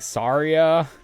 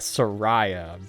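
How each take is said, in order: First: The name ends like Maria. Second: The name ends like Mariah. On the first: The speaker calls it right. "the correct pronunciation of her name" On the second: The speaker calls it wrong. "my entire family always called her uh"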